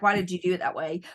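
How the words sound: It sounds accusing and challenging.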